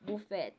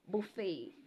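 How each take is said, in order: First: The final t is pronounced. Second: The final t is silent. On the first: The speaker calls it wrong. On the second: The speaker calls it right.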